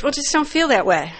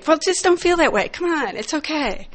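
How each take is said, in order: First: Said in the usual way. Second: Higher, sing-song parroting of "Well, just don't feel that way"; mock the glib advice in a higher voice; mocking their advice. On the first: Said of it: "women said". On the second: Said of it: "Well, what they say".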